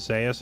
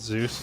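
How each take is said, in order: First: It is not said like the Greek god's name. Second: It is said like the Greek god's name. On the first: This is how the player himself says his name. The speaker calls it right. "His name is pronounced as Zeus" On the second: This follows the spelling of the Greek god's name. The speaker calls it wrong. "not Zeus, like the Greek god"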